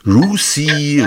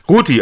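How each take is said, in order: First: The th is said as an English-style sound. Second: The th is said as a plain German t. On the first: The speaker calls it wrong. "Man will immer alles Englisch aussprechen" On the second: The speaker calls it right. "ist ja ein Deutscher"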